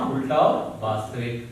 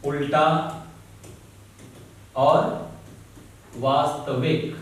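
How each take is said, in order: First: Said in the usual way. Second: Each word set apart by long pauses; slow, spaced dictation to students. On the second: Shown as a demonstration. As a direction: dictate it slowly for notes, word by word.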